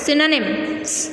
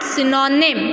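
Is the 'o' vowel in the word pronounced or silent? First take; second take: silent; pronounced. First: The 'o' vowel is left silent. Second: The 'o' vowel is clearly pronounced. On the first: The speaker calls it right. "Here O is silent" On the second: The speaker calls it wrong. "it's not synonym"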